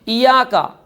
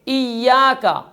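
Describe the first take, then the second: First: The 'y' sound is short and single. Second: The 'y' sound is held long and doubled. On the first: The speaker calls it wrong. "बाज़ लोग पढ़ देंगे" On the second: The speaker calls it right. "शद के साथ है, या को मुशद्दद अदा करना है"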